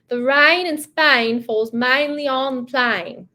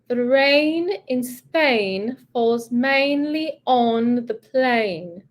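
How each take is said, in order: First: It is spoken in a broad Cockney accent. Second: It is spoken in a standard British accent. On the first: "I think it's called Cockney accent" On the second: "Then we're going to go British"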